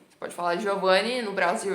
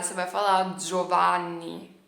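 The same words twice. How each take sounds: First: "Giovanni" said dji-o-va-ni, Brazilian style; Brazilian pronunciation. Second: "Giovanni" said zho-va-ni, Italian style; Italian pronunciation. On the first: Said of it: "Não é Giovanni". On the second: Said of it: "quando você tá aqui na Itália". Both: Shown as a demonstration.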